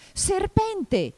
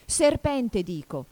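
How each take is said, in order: First: Very high, loud cry; alarmed shout. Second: High loud start falling to a subdued finish; insist, then let it drop; more subdued insistence. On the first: Pigeon cries out at Alice's long neck, high alarmed shout. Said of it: "gridò il colombo". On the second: Pigeon repeats the accusation, insisting then subdued. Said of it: "ma con tono più dimesso". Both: A narrator's reading.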